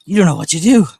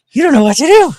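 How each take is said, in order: First: High, loud sing-song to the dog. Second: Much higher, loud squeal to the dog. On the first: Owner cooing to a confused dog, doggy baby talk. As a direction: coo it at the puppy. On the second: Owner cooing to a confused dog, squealing baby talk. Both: Real, not acted.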